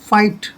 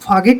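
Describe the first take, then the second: First: No g sound is heard before the t. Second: A g sound is heard before the t. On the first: The speaker calls it right. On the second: The speaker calls it wrong.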